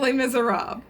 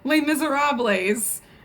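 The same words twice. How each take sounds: First: The S sound is left silent. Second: The S sound is pronounced aloud. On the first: The speaker calls it right. "The S is silent" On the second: The speaker calls it wrong. "It is not"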